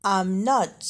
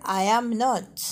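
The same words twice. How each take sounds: First: I'M run into one syllable before "not"; short "I'm" in "I'm not"; contracted form. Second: Slow, I and AM as separate words; uncontracted "I am", drawn out before "not"; full form. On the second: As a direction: say "I am not" word by word. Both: Shown as a demonstration. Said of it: "بالصيغة المختصرة".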